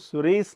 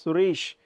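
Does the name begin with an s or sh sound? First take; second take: sh sound; s sound. First: It begins with an sh sound. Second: It begins with an s sound. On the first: The speaker calls it wrong. "सुरेश नहीं कहना है" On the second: The speaker calls it right. "किसी का नाम है सुरेश"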